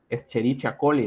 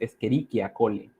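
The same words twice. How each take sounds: First: The 'ch' is said like English 'ch'. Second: The 'ch' is said like a 'k'. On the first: The speaker calls it wrong. "esta que a veces se lee" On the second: The speaker calls it right. "En realidad la pronunciación correcta es"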